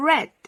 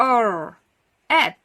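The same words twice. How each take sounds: First: "red" as one syllable; blended word. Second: "er", pause, "ed" as separate sounds; sounded out separately. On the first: Teacher combines R and ed for children, blended word. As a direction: run the R sound straight into ed for "red". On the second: Teacher prepares to combine R and ed, sounded out separately. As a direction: split the word into "er", then "ed". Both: Shown as a demonstration. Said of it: "มารวมกันค่ะ".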